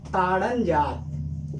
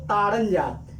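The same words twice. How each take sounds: First: ताड़न जात stretched out very slowly; slow teacher echo of ताड़न जात; slow drawn-out repeat. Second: Said in the usual way. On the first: Shown as a demonstration.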